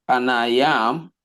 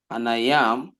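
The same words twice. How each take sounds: The two takes are said the same way.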